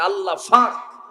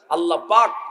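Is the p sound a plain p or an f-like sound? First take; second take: f-like; plain p. First: It is said in Noakhali dialect with f. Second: It is said in standard Bengali with p.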